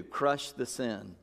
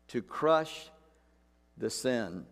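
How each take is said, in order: First: "Crush the sin" spoken very slowly and low, "crush" hit hard; soft, slow and weighty; slow emphatic. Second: "To crush" then a pause, "the sin" dropped low; repeated emphasis. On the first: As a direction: drive "Crush" home slowly. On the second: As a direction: pause before "the sin" and let it fall. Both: Shown as a demonstration.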